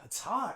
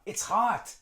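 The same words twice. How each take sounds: First: The vowel in "it's" is reduced to schwa. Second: The vowel in "it's" is a full vowel.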